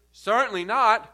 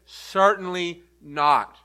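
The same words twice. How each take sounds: First: Said in the usual way. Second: "Certainly not." slowed way down, every word weighted; slow and emphatic on "Certainly not.", landing hard on not. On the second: Shown as a demonstration. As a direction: make "Certainly not." the strongest no you can say. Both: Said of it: "Emphasis there".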